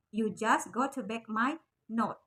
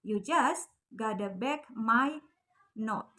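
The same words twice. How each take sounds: First: Said in the usual way. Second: Gotta said slow and clipped, two syllables; slang gotta. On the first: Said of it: "lengkapnya itu". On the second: Shown as a demonstration. Teacher slowly models the slang gotta for students. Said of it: "Got to-nya jadi gotta, pakai slang word".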